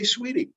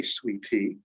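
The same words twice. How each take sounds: First: SWEETIE with T tapped like a quick D; one easy word SWEETIE, middle T flapped. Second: SWEET TEA with a true aspirated T; full T. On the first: Teacher showing how we say it, "sweetie" with alveolar flap. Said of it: "We say sweetie". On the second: Teacher contrasting drink with endearment, "sweet tea" with full T. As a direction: say SWEET TEA as two words, crisp T. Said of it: "we don't say sweet tea". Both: Shown as a demonstration.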